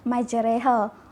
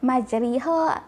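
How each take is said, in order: First: The vowel after r sounds like e. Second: The vowel after r sounds like i. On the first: The speaker calls it right. "Kataan yang sebenar yang betul adalah majreha" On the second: The speaker calls it wrong. "dia akan sebut majriha ... semua tu salah"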